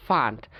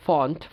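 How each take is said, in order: First: American ফান্ট (font) as FAHNT; American pronunciation. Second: British ফন্ট with rounded O; British pronunciation. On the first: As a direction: open AH in ফান্ট. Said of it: "উচ্চারণ করে আ". (ফান্ট-এ আ, American উচ্চারণ) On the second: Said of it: "ব্রিটিশরা যেসব জায়গায় অ". (ফন্ট-এ অ, British উচ্চারণ) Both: Shown as a demonstration.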